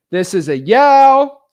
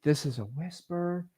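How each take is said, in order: First: Slow, much louder and higher yell. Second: Slow, breathy whisper, much softer; hushed demo whisper. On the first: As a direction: belt it out slowly across the room. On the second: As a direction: whisper it slowly under your breath. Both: Shown as a demonstration.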